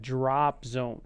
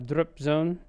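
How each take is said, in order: First: The vowel in drop is a wide open ah. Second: The vowel in drop is said with little mouth opening. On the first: The speaker calls it right. "you're going to have to say the ah in this one" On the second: The speaker calls it wrong. "It's not drop zone"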